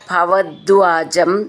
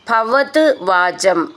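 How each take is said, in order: First: The words are run together into one stretch. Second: The words are said separately, each on its own.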